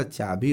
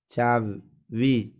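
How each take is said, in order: First: Said in the usual way. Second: चाबी said with a v, "chaa-vi"; wrong consonant. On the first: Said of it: "चाबी होता है". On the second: Shown as a demonstration. Teacher showing the wrong form, चाबी said slowly as "chaavi". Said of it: "चाबी नहीं होता".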